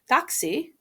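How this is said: The pitch rises at the end. The speaker is asking where to find a taxi. "with a rising contour"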